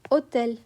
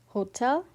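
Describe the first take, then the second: First: It starts straight on the vowel, no H. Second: It starts with a breathed H sound. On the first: The speaker calls it right. "you say hotel" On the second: The speaker calls it wrong. "You don't say hotel"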